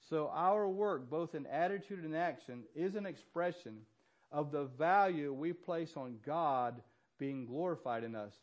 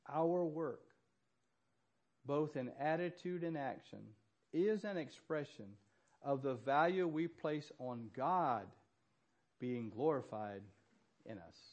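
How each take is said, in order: First: It is said at a normal pace. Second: It is said slowly and deliberately.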